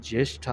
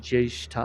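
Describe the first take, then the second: No difference in how they are said.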